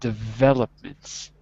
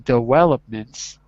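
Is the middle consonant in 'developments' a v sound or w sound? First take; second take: v sound; w sound. First: The middle consonant sounds like a v. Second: The middle consonant sounds like a w. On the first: The speaker calls it right. "instead of developments" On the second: The speaker calls it wrong. "I'm hearing developments"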